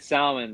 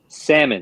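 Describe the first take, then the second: First: The L sound is pronounced. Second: The L sound is silent. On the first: The speaker calls it wrong. "they they corrected me pretty fast" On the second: The speaker calls it right. "I had to move up there to learn the L was silent"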